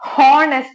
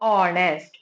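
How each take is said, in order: First: The word begins with an audible h sound. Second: The word begins with a vowel, h silent. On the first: The speaker calls it wrong. "இது honest அப்படின்னு சொன்னா தப்பு" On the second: The speaker calls it right. "It's honest. ... H silent"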